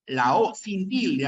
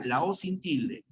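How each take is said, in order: First: "La O sin tilde" slower, with "O" leaned on; stress on O. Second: Said in the usual way. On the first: Shown as a demonstration. Teacher to class, slowing to stress the letter O. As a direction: draw out "O" and press it so the class catches it.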